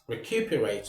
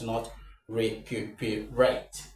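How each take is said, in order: First: The stress falls on the taught syllable. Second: The stress falls on a different syllable. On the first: The speaker calls it right. "Recuperate, not recuperate" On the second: The speaker calls it wrong.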